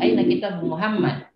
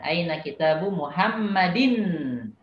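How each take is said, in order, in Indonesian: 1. Kata terakhir berakhir tanpa akhiran vokal. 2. Kata terakhir berakhir dengan akhiran -in. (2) "jadi kita harus tampakkan barisnya"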